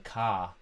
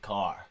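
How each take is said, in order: First: The word is said in a London accent. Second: The word is said in an American accent. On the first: "if a Londoner says car" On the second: "Americans say car"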